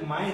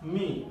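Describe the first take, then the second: First: The vowel sounds like 'eye'. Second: The vowel sounds like 'ee'. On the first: The speaker calls it wrong. "মাই হবে না" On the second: The speaker calls it right. "এটা এটা হবে হচ্ছে মি"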